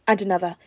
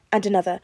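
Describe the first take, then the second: No difference in how they are said.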